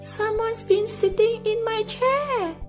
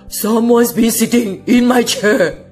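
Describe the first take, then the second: First: It is said in a soft, exclaiming voice. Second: It is said in a deep, growling voice.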